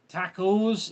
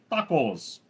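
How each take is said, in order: First: "tacos" said TACK-ohs, with a flat a as in "tack"; odd pronunciation of tacos. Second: Said in the usual way. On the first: Shown as a demonstration. Streamer reading a viewer's pronunciation question, "tacos" as TACK-ohs. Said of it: "Richard, do you say". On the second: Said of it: "instead of tacos".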